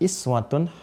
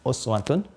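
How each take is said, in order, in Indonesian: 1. Kata ini dimulai dengan vokal 'i'. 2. Kata ini dimulai dengan vokal 'u'. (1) "Pakai kasrah" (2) "Ini dhammah ya. Uswah, dhammah"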